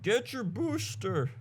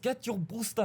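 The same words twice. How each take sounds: First: It is said in a Southern American accent. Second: It is said in a German accent. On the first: The speaker calls it wrong. "I don't know why they have a southern accent" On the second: The speaker calls it right. "that's more like the Pfizer C E O"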